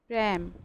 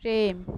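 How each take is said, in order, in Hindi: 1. यह स्वर खुला 'æ' ध्वनि है। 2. यह स्वर बंद 'e' ध्वनि है। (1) "অনেকে ভুল যদি বলে তখন কি বলবে প্রেম" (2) "আমরা অনেকে বলি কি প্রেম"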